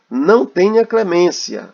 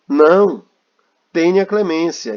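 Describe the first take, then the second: First: It is said without a pause after 'não'. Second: There is a pause right after 'não'. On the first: Show no mercy. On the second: Show mercy.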